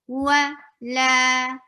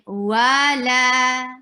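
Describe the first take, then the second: First: The second syllable is held clearly longer than the first. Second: Both syllables are held for the same length. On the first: The speaker calls it right. "Look how I say wa, la, wa, la" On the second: The speaker calls it wrong. "I'm not saying wa, la. I'm not stressing wow the same way as la"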